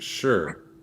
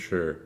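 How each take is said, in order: First: It is said brightly, with clear enthusiasm. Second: It is said flatly, with little enthusiasm. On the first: The speaker is keen to see more. The speaker calls it right. "It should have been like sure. That's how it should have been" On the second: The speaker is not really interested. The speaker calls it wrong. "Don't say don't don't sound so excited"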